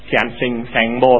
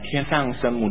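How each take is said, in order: First: The name is read in a Hokkien pronunciation. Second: The name is read in a non-Hokkien pronunciation.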